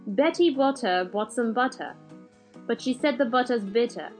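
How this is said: It is said in a British accent.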